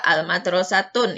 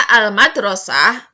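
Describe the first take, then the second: First: The word ends in a 'tun' sound. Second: The word ends in a breathy 'ah' sound. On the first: The speaker calls it wrong. "yang tidak bisa adalah al-madrasatun" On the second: The speaker calls it right. "Itu bisa al-madrasah, bisa"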